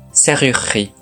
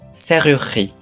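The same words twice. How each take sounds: First: The middle u vowel is dropped. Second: The middle u vowel is dropped.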